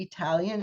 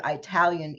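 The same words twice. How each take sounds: First: Said in the usual way. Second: "Italian" said as EYE-talian with a long eye sound. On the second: Retold or imitated. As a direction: stretch the first syllable of "Italian" into eye. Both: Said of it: "E Y E".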